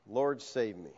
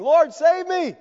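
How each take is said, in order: First: Soft, lower whispered-down prayer; quiet plea. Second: High, loud cry to the Lord; cry for help. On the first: Preacher closing the story, Peter's plea said soft and low. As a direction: let it fall soft and low. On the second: Sinking Peter crying to the Lord, high and loud. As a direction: call out sinking. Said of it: "he cries out saying". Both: Acted.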